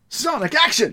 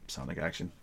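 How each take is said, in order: First: It is said with lively, excited energy. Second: It is said flatly, without any energy. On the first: The title carries an exclamation mark. "Not Sonic action" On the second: The title has no exclamation mark. "No enthusiasm"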